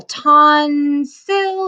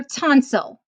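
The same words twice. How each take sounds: First: "tonsil" split into "ton" and "sil" with a gap between; syllable by syllable. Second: Said in the usual way. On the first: Shown as a demonstration. Teacher sounding out the word for students, syllable by syllable. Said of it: "sound out each syllable". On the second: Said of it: "and put it together".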